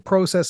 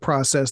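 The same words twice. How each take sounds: First: The word is said with a Canadian pronunciation. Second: The word is said with an American pronunciation.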